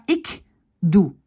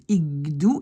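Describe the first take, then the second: First: Ik doe with a clear unvoiced K; wrong form. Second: Ik doe with the K voiced to G; right form. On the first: Teacher shows wrong ik doe, K kept. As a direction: say ik doe with a crisp K. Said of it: "pas ik doe". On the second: Teacher models correct Ik doe, K as G. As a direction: say Ik doe as igdoe. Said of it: "Ik doe et pas ik". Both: Shown as a demonstration.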